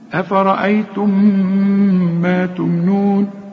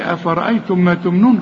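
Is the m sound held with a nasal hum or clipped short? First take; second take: nasal hum; clipped short. First: The merged m is held with a nasal hum. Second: The m is clipped short without a hum. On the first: The speaker calls it right. "بتضغم في الميم اللي بعدها ... ويبقى في غنة" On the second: The speaker calls it wrong. "ما قلش ... خطأ، بتضيع حرف"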